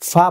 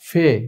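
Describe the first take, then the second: First: The letter name ends in an 'a' vowel. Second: The letter name ends in an 'e' vowel. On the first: This is the Arabic name of the letter. The speaker calls it wrong. "এটা আরবিতে আমরা ফা বলে থাকি" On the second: This is the Urdu name of the letter. The speaker calls it right. "উর্দুতে হচ্ছে ফে"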